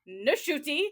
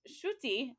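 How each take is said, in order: First: The name starts with an n sound first. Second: The name starts straight with a sh sound. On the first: The speaker calls it right. "no, no, it's" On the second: The speaker calls it wrong. "I've always thought it was"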